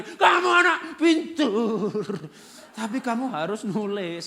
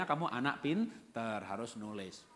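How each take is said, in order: First: Loud, higher, very slow shouted praise; shouting. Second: Said in the usual way. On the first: Acted. Parent yelling at the child who will not write. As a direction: bellow it at the child. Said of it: "kita teriak". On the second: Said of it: "tapi bilangnya".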